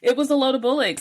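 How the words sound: It is said in a put-on British accent.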